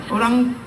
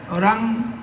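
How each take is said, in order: Both takes have the same delivery.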